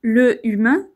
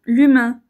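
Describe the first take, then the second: First: The vowel of le is pronounced separately. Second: The vowel of le is dropped and linked. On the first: The speaker calls it wrong. "on ne dira pas" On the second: The speaker calls it right.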